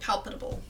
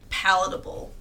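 First: "Palpable" whispered softly back; breathy whisper of "Palpable"; whispered mock-correction. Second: "palatable" as PAL-uh-tuh-bul; "palatable" said carefully, all syllables; saying palatable. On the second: Real, not acted.

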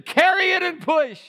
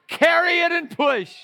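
First: Loud high preaching cry; ringing preacher shout; shouted command again. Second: Loud high preaching cry; ringing preacher shout; shouted command. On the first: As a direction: call it out even harder. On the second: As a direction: call it out to the church. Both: Acted.

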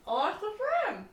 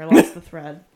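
First: "I lost the thread" high and laughing. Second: Said in the usual way. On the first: Real, not acted. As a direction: giggle through "I lost the thread".

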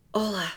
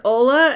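First: Softly imitating a child's quietest whisper. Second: Retelling a louder questioning echo of a name; checking question. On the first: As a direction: say it small and hushed, well under your voice. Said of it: "like this, this quietest whisper". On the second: Retold or imitated. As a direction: repeat the name back to check it. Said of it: "I said, Ola?".

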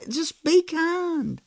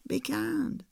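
First: High, slow, drawn out; emphatic slow. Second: Much softer, almost murmured; soft echo. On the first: Pastor driving home his point, high and slow. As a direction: lean hard on each word. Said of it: "climax of sermon point". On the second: Pastor repeating his point to listeners, softly. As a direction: let it land gently. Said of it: "soft echo after climax". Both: Real, not acted.

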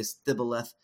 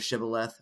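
First: Stibboleth with st in place of sh; wrong sh sound. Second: Said in the usual way. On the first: Shown as a demonstration. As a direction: say stibboleth, opening on s-t. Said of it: "couldn't make the S H sound". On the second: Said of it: "instead of shibboleth".

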